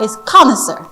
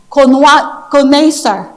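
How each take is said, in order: First: Connoisseur said the English way, KAH-nuh-sur with the stress on the first syllable; correct English pronunciation. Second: Connaisseur said very slowly, drawn out in a French-like way, as the mispronunciation heard on Google; imitating a wrong pronunciation. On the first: Shown as a demonstration. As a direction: model connoisseur clearly in English, first syllable stressed and a weak middle schwa. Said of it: "the English pronunciation is this one". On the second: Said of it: "you're gonna hear some people on Google will say".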